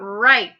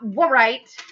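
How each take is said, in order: First: The word begins with a plain r sound. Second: A w sound is pronounced before the r. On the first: The speaker calls it right. "but write a story" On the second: The speaker calls it wrong. "not write a story"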